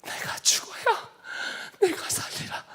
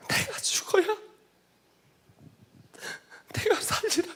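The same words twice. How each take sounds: First: High, hushed and slow; whispered words of Jesus. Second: Higher, crying through the words; tearful repeat. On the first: Jesus answering the weeping man, softly whispered. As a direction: breathe it out gently like a vision speaking. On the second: Preacher repeating Jesus' answer, now crying. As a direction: say it again as tears take over. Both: Retold or imitated. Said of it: "이렇게 말씀하셨어요".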